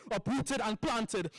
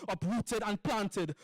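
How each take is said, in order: Both takes have the same delivery.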